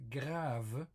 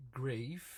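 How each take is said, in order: First: Grave with an open French "ah"; French grave, long "ah" instead of "ay"; French pronunciation. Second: Grave with an English "ay" vowel; grave said the English way, long "ay"; English pronunciation. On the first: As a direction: say grave as "grahv", drawn out slowly. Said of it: "pronounced differently". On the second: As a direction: say grave to rhyme with wave. English reading before French one. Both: Shown as a demonstration.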